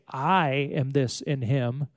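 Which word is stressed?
I. The stress is on the word I.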